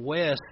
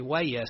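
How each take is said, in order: First: Said in the usual way. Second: "Wayes" split into two syllables, WAY-es; two-syllable country pronunciation. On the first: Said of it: "two syllables when they pronounce my name. Instead of West". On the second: Retold or imitated. Preacher imitating older Buford people saying his name, two-syllable "Wayes". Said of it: "older people that still uses two syllables when they pronounce".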